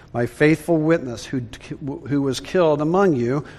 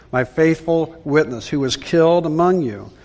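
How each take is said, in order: Both takes have the same delivery.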